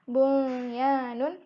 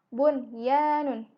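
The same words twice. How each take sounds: First: The n is nasally merged into the y. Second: The n is said clearly before the y. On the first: The speaker calls it wrong. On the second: The speaker calls it right. "yang benar biasa aja"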